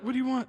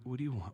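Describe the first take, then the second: First: It sounds irritated and defensive. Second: It sounds open and willing.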